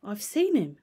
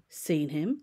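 First: SEEN hit loud, then falling; emphatic statement. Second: "Seen him" rising on HIM as a question; questioning echo. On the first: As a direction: land hard on SEEN as a firm statement. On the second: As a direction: echo it back, lifting HIM at the end. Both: A narrator's reading. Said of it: "repeated Utterson".

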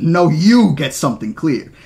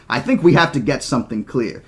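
First: "you" punched loud and drawn out; loud, slow retort with weight on "you"; stress on you. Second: Said in the usual way. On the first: Acted. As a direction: throw it back angrily, hitting "you" hard. Throws the words back angrily.

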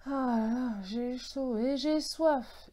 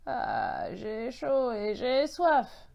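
First: Slow, higher-pitched sigh of heat and thirst; saying aloud to oneself. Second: Slow, drawn-out hoarse echo. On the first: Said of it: "ai-je dit tout haut". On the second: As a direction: repeat it as a parched, croaky voice. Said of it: "a répété une voix enrouée". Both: A narrator's reading.

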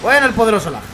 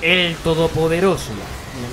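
First: Louder, higher mock herald; mock proclamation. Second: Very slow, solemn mock announcer; epic announcer voice. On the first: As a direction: hail the lag like a king. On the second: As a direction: intone it like an epic trailer. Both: Mock-hailing the lag.

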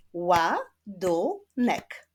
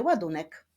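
First: "Ładunek" in three slow, separate beats; split into syllables. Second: Said in the usual way. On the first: Shown as a demonstration. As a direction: clap out "Ładunek" slowly, syllable by syllable. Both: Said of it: "Wyklaszczmy sylaby w wyrazie".

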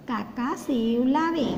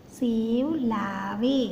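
First: Said in the usual way. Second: "सेव लावे" said very slowly, each sound stretched; slow phonics demonstration; slow syllable reading. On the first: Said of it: "तो उसका उच्चारण होगा वे।". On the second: Shown as a demonstration. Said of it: "व बराबर ए".

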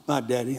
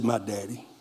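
First: Said in the usual way. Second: Much softer and lower, a hushed confident answer; hushed firm reply to the brothers; quiet conviction. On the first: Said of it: "repeats the answer". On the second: Retold or imitated. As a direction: lay it down softly and lower. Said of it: "answers brothers with quiet conviction".

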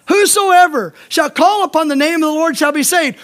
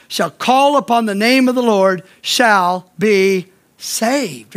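First: Ringing declaration of the verse; emphatic quote. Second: Measured recitation of the promise; slow scripture reading. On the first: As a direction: proclaim "Whosoever" up front. Preacher repeats verse with emphasis. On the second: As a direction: lower and slow, every word laid out. Preacher quotes Romans verse slowly. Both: Shown as a demonstration.

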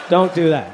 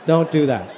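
No difference in how they are said.

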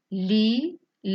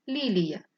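First: "Лі-лі-я" with a clear break between each syllable; syllabified. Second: Said in the usual way. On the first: Shown as a demonstration. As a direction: split "Лі-лі-я" into three beats.

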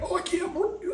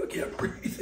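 First: Much higher, soft, gasping cry of dismay; mock heat shock. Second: Whispered and laughing, out of air; breathless laughing whisper. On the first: Cruise tourist hit by humid air, gasping high. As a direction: stagger out into the heat. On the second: Retold or imitated. Cruise tourist wilting in the heat, whispering breathlessly. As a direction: fade to a gasping whisper. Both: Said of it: "and you're like".

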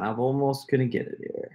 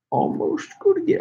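First: Said in the usual way. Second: Playful high echo of his own words; high-pitched repeat. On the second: Real, not acted. Streamer filling time before a prank call, high-pitched repeat. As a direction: jump up to a very high voice.

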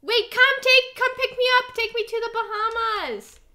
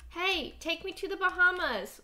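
First: Calling out. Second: Said in the usual way. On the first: Real, not acted. Calling for a ride in game.

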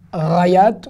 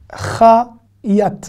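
First: R à la place du CH dans rayat; chet mal prononcé. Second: CH de Chayat frotté, plus près de la bouche; chet correct. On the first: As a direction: dis rayat avec un R de gorge fautif. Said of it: "Et pas rayat". (« rayat » avec un R au lieu du chet) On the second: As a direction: Chayat avec un CH net, ni R ni H. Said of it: "Prononcez bien le chet". (« Chayat » avec un chet bien frotté) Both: Shown as a demonstration.

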